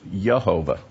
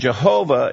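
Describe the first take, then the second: First: The name begins with a Y sound. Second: The name begins with a J sound. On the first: "in Old English, the way this was pronounced was Yehovah" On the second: "Jehovah is an English way of trying to pronounce this name"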